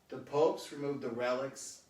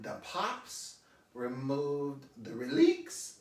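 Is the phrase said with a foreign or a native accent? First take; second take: native; foreign. First: It has a native accent and normal stress. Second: It has a foreign accent and odd stress.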